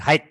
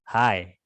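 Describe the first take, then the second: First: The word is said with the 'gh' letters sounded. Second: The word sounds like the greeting 'hai'. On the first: The speaker calls it wrong. "Bukan high. Jadi huruf G sama H-nya itu nggak dibaca" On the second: The speaker calls it right. "Caranya baca seperti itu. Hai"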